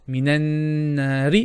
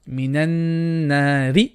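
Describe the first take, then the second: The two takes are said the same way.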